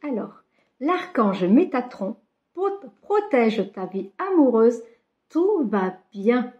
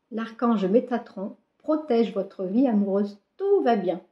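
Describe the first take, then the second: First: Reading each word slowly off the card. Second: Said in the usual way. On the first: Shown as a demonstration. Reading the card aloud to her viewers, slow and deliberate. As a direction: spell out the card's message slowly, word by word. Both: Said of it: "Je sais pas si vous allez le voir".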